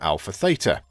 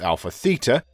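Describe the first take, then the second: First: The name is said the American way. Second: The name is said the European way. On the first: "the U S team" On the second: "Their European team pronounce it"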